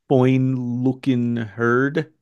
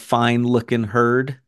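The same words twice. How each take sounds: First: It is said in a strong regional dialect accent. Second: It is said in a plain, standard accent. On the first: "they say" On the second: "instead of"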